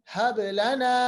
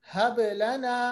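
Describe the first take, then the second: No difference in how they are said.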